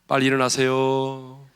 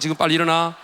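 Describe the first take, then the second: First: It is said calmly at a normal pitch. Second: It is said angrily with a raised pitch.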